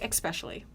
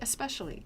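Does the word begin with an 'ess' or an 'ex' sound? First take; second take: ex; ess. First: The word begins with an 'ex' sound. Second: The word begins with an 'ess' sound. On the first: The speaker calls it wrong. "you say especially" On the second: The speaker calls it right. "just say especially"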